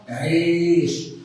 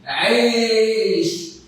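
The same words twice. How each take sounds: First: The word is said in a quiet voice. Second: The word is said in a loud voice. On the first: "مره بصوت واطي" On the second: "مره بصوت عالي"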